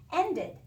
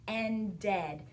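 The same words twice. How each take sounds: First: Said in the usual way. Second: "Ended" slowly, split as end-ED; ending sounded out. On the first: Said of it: "change it into a different word". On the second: Shown as a demonstration. Teacher letting pupils hear the ed, sounding out "Ended". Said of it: "Did you hear the ed in that word".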